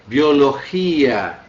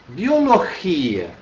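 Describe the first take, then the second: First: Biologia said slowly, weight on the gi syllable; slow stress demo. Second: Biologia broken slowly into bi-o-lo-gi-a; slow syllable demo. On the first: Teacher modelling the word for the class, slow and clear. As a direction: stretch Biologia, leaning on the second i. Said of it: "Ouvindo a minha pronúncia". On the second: Teacher showing the class the split syllables, slow. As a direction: space out each syllable of Biologia. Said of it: "Agora aqui, ó". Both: Shown as a demonstration.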